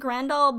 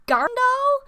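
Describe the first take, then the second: First: The name starts with the sound 'gra'. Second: The name starts with the sound 'gar'. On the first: The speaker calls it wrong. "I've been pronouncing this show's name wrong" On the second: The speaker calls it right. "I think it's actually Garndal"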